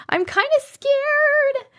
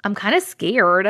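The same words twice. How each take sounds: First: High, drawn-out mock fright; hammed-up nervousness, pitched way up; playfully scared. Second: Said in the usual way. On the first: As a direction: stretch it into a high, slow little whine.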